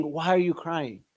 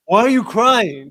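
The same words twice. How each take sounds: First: Said in the usual way. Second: Louder, slower, impatient mock husband; loud dismissive husband. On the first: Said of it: "Not saying". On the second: Mocking a husband who brushes off his crying wife, loud and impatient. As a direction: bark it like a husband who is fed up. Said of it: "women hate that when husbands say".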